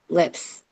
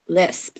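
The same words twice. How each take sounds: First: "lips" with the s and p swapped, ending on p; slipping into "lips" instead of the word; fumbled lisp. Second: "lisp" said slowly and deliberately, final p barely there; trying hard to get "lisp" right; careful lisp. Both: Real, not acted. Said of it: "See? Can't even say it".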